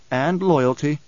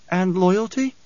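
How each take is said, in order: First: Duncan's firm reply. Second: High-voiced, probing question; questioning Alia. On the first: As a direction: answer evenly, in a grounded man's voice. Duncan confirms Alia's question. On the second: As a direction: press him with a high, rising query. Alia asks, Duncan echoes. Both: A narrator's reading.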